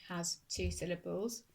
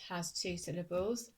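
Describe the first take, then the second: No difference in how they are said.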